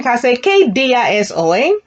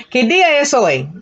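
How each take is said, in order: First: Said in the usual way. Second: Quicker, run the words together; quick conversational pace; faster. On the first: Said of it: "All right, again". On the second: Shown as a demonstration. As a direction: speed it up like real talk. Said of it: "with a little bit of speed now".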